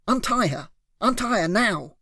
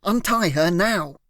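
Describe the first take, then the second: First: Higher, sharp "Untie" barked out; raised demand. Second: "Untie" said slowly and deliberately; slow firm demand. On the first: Hero bellows at the kidnapper, "Untie" raised and sharp. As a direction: hit "Untie" hard and high. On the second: Hero repeats the order slowly, "Untie" deliberate. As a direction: spell out "Untie her now" slowly, a final warning. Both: A narrator's reading.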